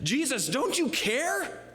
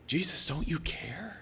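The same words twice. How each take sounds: First: High, drawn-out panicked mock wail; freaking out. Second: Subdued private plea. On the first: Disciples crying to Jesus in the storm, freaking out. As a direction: act out a panicked plea, much higher. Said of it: "But they were freaking out". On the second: Retold or imitated. Preacher praying with nothing happening, subdued plea. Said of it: "And I feel like".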